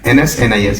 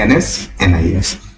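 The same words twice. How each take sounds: First: The letters run together without any pause. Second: There is a pause after the first two letters. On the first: The speaker calls it wrong. "ऐसे नहीं पढ़ा" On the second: The speaker calls it right. "ऐसे तरीके से divide करके"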